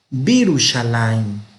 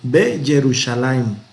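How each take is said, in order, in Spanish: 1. Empieza con bi, unido en una sola palabra. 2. Empieza con be, y luego un sonido ye separado. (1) "sino Birushalayim" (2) "no se oye bien"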